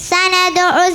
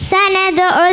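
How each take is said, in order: No difference in how they are said.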